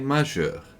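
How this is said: It has a French-like 'je' sound, Limburg style.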